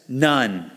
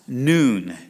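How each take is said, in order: First: The vowel sounds like the one in 'none'. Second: The vowel sounds like the one in 'noon'. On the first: The speaker calls it wrong. "Now it says none" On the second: The speaker calls it right. "but it's pronounced noon"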